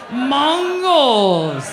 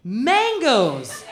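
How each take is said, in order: First: Mongols said for mangoes, round o and no e; "Mongols" for "Mangoes", mocking the vowel; mocking her accent. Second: Said in the usual way. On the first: Comic teasing a front-row woman, "Mongols" for "Mangoes". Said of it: "How about your accent?".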